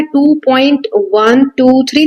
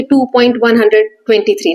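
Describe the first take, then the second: First: "टू पॉइंट वन टू थ्री" read slowly, each digit after the point said separately as "वन", "टू", "थ्री"; slow teacher demo saying "टू पॉइंट वन टू थ्री" digit by digit. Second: "टू पॉइंट वन हंड्रेड ट्वेंटी थ्री", with the digits after the point read as one whole number; teacher showing the mistaken whole-number reading "वन हंड्रेड ट्वेंटी थ्री"; wrong reading. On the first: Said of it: "वन टू थ्री अलग-अलग read करना है". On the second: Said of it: "ऐसे नहीं बोलेंगे". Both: Shown as a demonstration.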